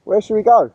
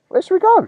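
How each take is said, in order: First: Said in the usual way. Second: High playful voice. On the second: Pretend. Repeats the question for the dog.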